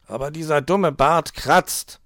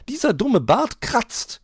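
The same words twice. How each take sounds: First: Slow, louder whining grumble on "dumme"; a fox grumbling about the itchy beard; complaining. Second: Very high, slow mimicking of his whine, rising on "dumme"; mocking quote. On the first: Herr Fuchs complains about the itchy beard, whiny. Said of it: "beschwerte er sich". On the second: Frau Elster mocks the fox's complaint, high and slow. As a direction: parrot his complaint back at him. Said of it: "noch nie haben wir ihn sagen hören". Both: A narrator's reading.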